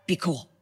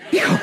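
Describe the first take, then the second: First: Softer, hushed self-talk; inner hushed voice. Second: Said in the usual way. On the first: Retold or imitated. Preacher calming himself inside after the miracle, hushed. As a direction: tell yourself quietly to stay calm. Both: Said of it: "on the inside, I'm like".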